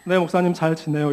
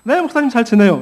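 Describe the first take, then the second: First: The voice sounds flat and gloomy. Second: The voice sounds bright and cheerful. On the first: The person is actually not doing well. "잘 못 지내고 있다라는 거죠" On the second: The person is really doing well. "막 되게 기쁜 목소리로"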